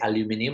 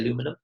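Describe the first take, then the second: First: The word is said the British way. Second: The word is said the American way. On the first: "I don't say aluminium anymore" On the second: "I work a lot in America, ... I say aluminum"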